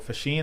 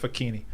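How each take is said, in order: First: The name is said the Americanized way. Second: The name is said the Italian way. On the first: The speaker calls it wrong. "is the Americanized version" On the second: The speaker calls it right. "the Italian like correct pronunciation"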